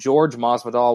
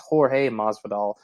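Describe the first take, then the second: First: The first name sounds like English George. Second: The first name sounds like Spanish Jorge. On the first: Other people say the name this way. The speaker calls it wrong. "I keep hearing other podcasts call him George Masvidal" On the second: This is the name's actual form. The speaker calls it right. "like it's Jorge Masvidal"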